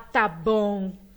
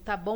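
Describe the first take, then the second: First: It is said in a doubtful, skeptical tone. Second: It is said in a curt, angry tone. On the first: The speaker does not believe what was said. "uhum, tá, fala mais. Pensa que me engana" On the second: The speaker is upset and ends the talk. "tá bom, acabou, tô brava, não fala comigo"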